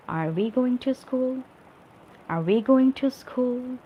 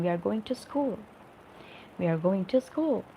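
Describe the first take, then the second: First: "Are we going to school" pitched high, held up to the end; questioning tune. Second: "We are going to school" as an even statement, falling on "school"; normal statement. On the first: Teacher showing how a question is asked, "Are we going to school" high and questioning. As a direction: ask "Are we going to school" with a clearly raised voice. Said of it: "the way we'll be asking this question".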